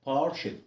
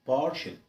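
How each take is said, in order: No difference in how they are said.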